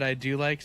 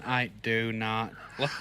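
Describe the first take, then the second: First: Said in the usual way. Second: Slow, lower mock robot voice. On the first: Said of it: "it sounded like you said". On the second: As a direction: imitate an edited-in machine voice. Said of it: "you put the robot voice in".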